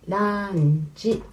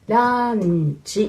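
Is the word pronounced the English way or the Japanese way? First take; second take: Japanese; Japanese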